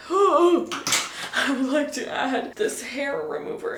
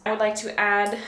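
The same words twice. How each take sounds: First: Gasp, then slow grand words; mock-grand gasped announcement. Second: Said in the usual way. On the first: Shown as a demonstration. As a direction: announce it like a big revelation. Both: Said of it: "I would like to add the hair remover".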